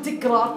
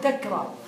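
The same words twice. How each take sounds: First: The first syllable has the vowel i. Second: The first syllable has the vowel a. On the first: The speaker calls it wrong. "لا تقول تكرار" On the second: The speaker calls it right. "تقول تكرار بالفتح"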